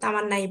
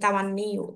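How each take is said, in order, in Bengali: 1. শব্দটি 'ai' ধ্বনি দিয়ে শেষ হয়। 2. শব্দটি 'iu' ধ্বনি দিয়ে শেষ হয়। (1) "তামান্নাই পড়বেন না" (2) "এটা শুদ্ধ হচ্ছে তামান্নিউ"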